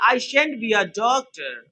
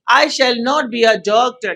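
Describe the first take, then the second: First: 'Shall not' is shortened into one syllable. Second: 'Shall not' is said as two full words. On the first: "shall not को छोटा में shan't कहते हैं" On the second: "दोनों सही है"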